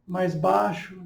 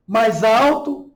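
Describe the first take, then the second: First: Softer, dropped voice; lower voice. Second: Raised voice, drawn out slowly; louder voice. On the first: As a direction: demonstrate dropping the voice softly. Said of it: "modificando o tom de voz, mais baixo". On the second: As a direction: demonstrate speaking up, slowly. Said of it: "modificando o tom de voz". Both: Shown as a demonstration.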